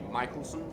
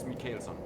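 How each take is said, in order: First: The name is said with an English pronunciation. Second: The name is said with a Scandinavian pronunciation. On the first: This is how outsiders would say it. The speaker calls it wrong. "I know you will say Michaelson" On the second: This is how locals say it. The speaker calls it right. "here it's Mikaelsson"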